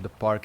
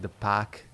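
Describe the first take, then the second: First: It is said in the speaker's usual accent. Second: It is said in a Boston accent, dropping the r.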